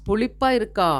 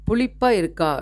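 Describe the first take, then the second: No difference in how they are said.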